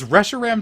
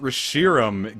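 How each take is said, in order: First: The stress is not on the middle syllable. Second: The stress is on the middle syllable. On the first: It is the official pronunciation. "just sounds so, like, ch like chunky and brute forcey" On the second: "It flows. It's like it's putting the emphasis on Shiro"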